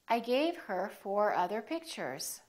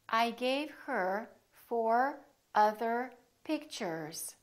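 First: The sentence is said at a fast pace. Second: The sentence is said at a slow pace.

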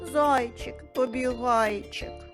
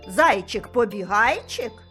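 First: It is said in a sad, gloomy tone. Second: It is said in a surprised, wondering tone. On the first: "А тепер скажемо сумно" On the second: "А тепер здивовано"

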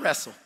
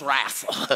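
First: The word is said in a standard accent. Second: The word is said in a country Oklahoma accent. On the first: The speaker calls it wrong. "Not wrestle" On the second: The speaker calls it right. "Country, Oklahoma, let's wrestle. Like that"

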